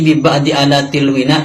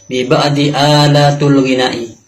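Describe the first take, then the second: First: The word 'alat' ends in an 'i' vowel. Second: The word 'alat' ends in an 'u' vowel. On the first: The speaker calls it right. "yang benar alat itu dibaca kasroh" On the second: The speaker calls it wrong. "Alatul dibaca dhammah"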